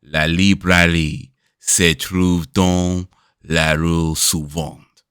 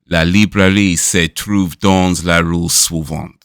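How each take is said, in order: First: It is said in a more sensual way. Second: It is read out flatly, without feeling. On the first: "sensuality needs to be just turn it up" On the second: "you're just reading it"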